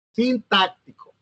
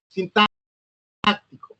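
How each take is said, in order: First: Sintáctico said again, a little less stretched and falling; sintáctico restated more normally with falling tune; repeated term. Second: Sintáctico drawn out very slowly, syllable by syllable; sintáctico spelled out in a slow, stretched dictation; slow stretched term. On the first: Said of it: "term repeated for the class". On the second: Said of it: "term read out for the class". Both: Shown as a demonstration.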